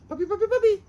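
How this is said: It is said quickly in a high-pitched voice. The dog stops what it is doing. The speaker calls it right. "in a high pitched frequency, very close together"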